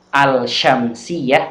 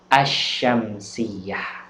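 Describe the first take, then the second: First: The L sound is clearly pronounced before SH. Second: The L sound merges into a doubled SH. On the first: The speaker calls it wrong. "Bukan al-syamsiyah" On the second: The speaker calls it right. "membacanya adalah asyamsiyah"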